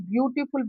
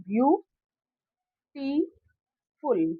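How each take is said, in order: First: The word is said smoothly without breaks. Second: Each syllable is said separately with pauses. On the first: "जैसे beautiful बोला" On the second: "तोड़ के देखते हैं"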